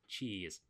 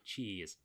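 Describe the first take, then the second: First: It is said in an Australian-sounding accent. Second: The same.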